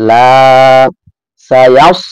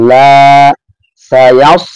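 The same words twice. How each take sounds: The two takes are said the same way.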